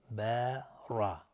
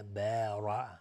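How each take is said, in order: First: بارا drawn out with a heavy را; slow heavy ra. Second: بارا with a full, heavy را. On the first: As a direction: stretch بارا and thicken the را. (بارا کشیده با رای مفخم) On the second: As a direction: give the را in بارا a thick sound. (رای پر و درشت در بارا) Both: Shown as a demonstration. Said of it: "را مفخم هست".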